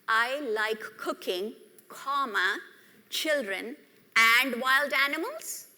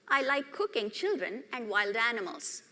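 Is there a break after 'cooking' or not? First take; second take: break; no break. First: There is a break after cooking. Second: It runs on without a break after cooking.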